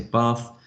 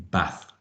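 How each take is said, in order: First: "bath" with a long "ah", as "bahth"; long-a pronunciation. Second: "bath" with a short a, as in "bat"; short-a pronunciation. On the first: Teacher giving his own accent's version, long "ah" in "bath". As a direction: say "bath" with an open "ar" vowel. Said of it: "Again, I say bath". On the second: Teacher showing another region's version, short a in "bath". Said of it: "using a sh-, a short". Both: Shown as a demonstration.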